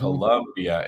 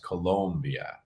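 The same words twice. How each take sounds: First: The second syllable has a 'u' vowel. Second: The second syllable has an 'o' vowel. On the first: The speaker calls it wrong. "not a U. It's not" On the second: The speaker calls it right. "it should be said with an O"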